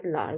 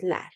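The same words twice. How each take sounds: First: "lar" said with a back "a" like "lahr"; the suffix "lar" with an open back vowel; wrong suffix lar. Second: "lar" said with a front vowel like "ler"; the suffix "lar" said as "ler" with a front vowel; right suffix ler. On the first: Teacher naming the wrong suffix, "lar" with a back vowel. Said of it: "because it is an exception, we do not add". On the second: Teacher giving the correct suffix, "lar" with a front vowel. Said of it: "because it is an exception". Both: Shown as a demonstration.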